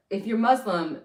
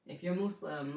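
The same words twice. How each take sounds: First: "Muslim" with a short u and a buzzed z, MUZ-lum; switched pronunciation. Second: "Muslim" with an oo and a soft s, MOOS-lim; careful pronunciation. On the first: Host settles on her own way of saying it, "Muslim" as MUZ-lum. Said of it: "I'm gonna say Muslim". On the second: Host tries a word that sounds weird to her, "Muslim" as MOOS-lum. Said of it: "it just sounds so weird when I say Muslim". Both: Real, not acted.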